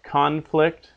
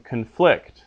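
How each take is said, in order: First: CONflict, stress on the first syllable. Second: ConFLICT, stress on the second syllable. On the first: Latin teacher contrasting English word pairs, conflict stressed at the front. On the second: Latin teacher contrasting English word pairs, conflict stressed at the end. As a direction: hit the last syllable of conflict. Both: Shown as a demonstration. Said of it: "they're pronounced diff-, differently solely based on their accent".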